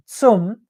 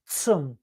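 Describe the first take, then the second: First: "zum" said as the wrong version, a louder English-style z; the mistaken "zum" before the correction. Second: The corrected German "zum". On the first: Teacher first says "zum" the wrong way. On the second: Teacher models the right "zum" after the mistake. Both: Shown as a demonstration. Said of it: "not zum".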